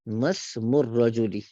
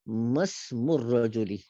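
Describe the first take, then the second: Both takes have the same delivery.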